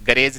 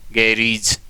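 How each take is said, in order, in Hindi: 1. दूसरे अक्षर में छोटा 'e' स्वर है। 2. दूसरे अक्षर में लंबा 'ee' स्वर है। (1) "गैरेज नहीं"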